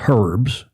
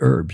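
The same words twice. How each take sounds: First: It sounds like the man's name Herb. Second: It does not sound like the name Herb. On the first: "I've heard it called herbs, but that's a man's name" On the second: "We would say herbs"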